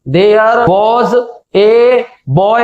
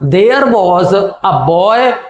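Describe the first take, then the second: First: Each word is said separately with breaks. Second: The words flow together at a medium pace. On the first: The speaker calls it wrong. "कभी भी ऐसे नहीं पढ़ाएं" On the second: The speaker calls it right. "एक medium pace में इस text को हम पढ़ें"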